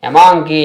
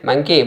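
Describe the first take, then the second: First: The word begins with an extra vowel before m. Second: The word begins directly with the m sound. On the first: The speaker calls it wrong. "ఎక్కడైనా పలుకుతున్నామా? లేదే" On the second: The speaker calls it right. "మా"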